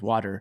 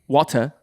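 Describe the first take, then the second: First: It is said in an American accent. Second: It is said in an upper-class British accent.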